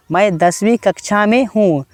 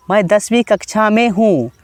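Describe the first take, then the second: No difference in how they are said.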